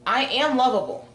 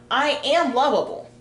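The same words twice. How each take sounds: First: "am" lifted and firm, echoing the model line; repeated affirmation, stress on am. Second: "am" pushed up and firm, said as a self-affirmation; affirmation, stress on am. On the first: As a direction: repeat it, leaning on "am". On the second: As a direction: lean on "am" and let it fall. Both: Shown as a demonstration. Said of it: "Just say it like that".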